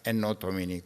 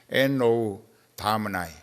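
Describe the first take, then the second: First: Domini ends with an 'ee' sound, Latin style. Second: Domini ends with an 'eye' sound, English style. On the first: "그 라틴어식 발음이에요" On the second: "그 영국식 발음으로 하면"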